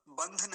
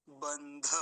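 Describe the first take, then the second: First: बंध as one syllable, bandh; half dha. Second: बंध as ban-dha, vowel sounded; full dha. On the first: Teacher showing what not to say, half dha. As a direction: cut बंध off on the dh. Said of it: "बंध नहीं बोलेंगे". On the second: Teacher drawing attention to dhakar, full dha. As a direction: open बंध out into a clear dha. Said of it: "इस पर, धकार पर।". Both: Shown as a demonstration.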